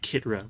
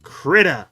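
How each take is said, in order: First: The r sound comes right after the t. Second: The r sound comes right after the k. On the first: The speaker calls it wrong. "I was calling it Kitra, wasn't I? What a strange thing to call it" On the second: The speaker calls it right. "I said it correctly that time"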